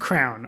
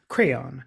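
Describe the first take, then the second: First: The word is said as one syllable. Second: The word is said as two syllables. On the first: "I said crown" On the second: "she says crayon, and I'm like, you know, you're just making it multisyllabic"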